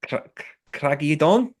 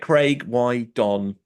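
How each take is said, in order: First: "Clagi Don" pitched up as an unsure question; tentative stab at Welsh "Clagi Don", stumbling on the first syllable; attempted Welsh pronunciation. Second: Slow English reading of "Craig Y Don", Y said "why"; "Craig Y Don" sounded out slowly in plain English; anglicised Welsh place name. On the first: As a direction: haltingly guess "Clagi Don" in mock Welsh, starting and restarting. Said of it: "however you say it in Welsh". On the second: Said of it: "but probably not pronounced Craig". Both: Shown as a demonstration.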